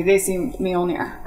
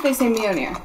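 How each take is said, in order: First: "Mjolnir" slowly as mee-ol-neer, L sounded; Avengers movie pronunciation. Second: "Mjolnir" as myo-neer, L silent; Thor movie pronunciation. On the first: Showing the disliked film version, "Mjolnir" slowly as mee-ol-neer. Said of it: "like, Avengers movie". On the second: Contrasting the films for friends, "Mjolnir" as myo-neer. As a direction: say "Mjolnir" without the L. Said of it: "like the actual Thor movies". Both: Shown as a demonstration.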